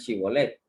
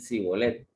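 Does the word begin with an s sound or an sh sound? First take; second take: sh; s. First: The word begins with an sh sound. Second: The word begins with an s sound. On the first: This is how the people of Judah said it. The speaker calls it right. "que dijeran Chibolet" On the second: This is how the northern tribe said it. The speaker calls it wrong. "Ellos decían Sibolet. Ellos no sabían pronunciar esta letra"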